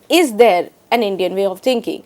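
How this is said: The stress falls on the word is. "italicized the word is"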